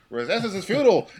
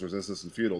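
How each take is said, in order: First: It is said loudly with rising, frantic intensity. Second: It is said in a flat, monotone robotic voice. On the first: "they just get louder and louder" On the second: "They're like very like monotone"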